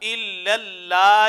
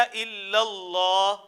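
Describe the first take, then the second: First: "الا اللہ" with a light, thin L and open "aa"; drawn-out "الا اللہ" with unrounded vowel after L. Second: "الا اللہ" with a full, heavy L and rounded "aw"; drawn-out "الا اللہ" with dark, thick L. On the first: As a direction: say "الا اللہ" slowly as illal-laah, L kept light. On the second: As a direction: say "الا اللہ" slowly as illal-lawh. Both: Shown as a demonstration. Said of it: "جس کو سختی سے ادا کرنا ہے".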